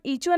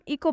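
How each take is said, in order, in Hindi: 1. बीच का व्यंजन ch की ध्वनि है। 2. बीच का व्यंजन k की ध्वनि है। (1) "इसे हम ईचो नहीं पढ़ेंगे" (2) "इसे हम इको पढ़ेंगे"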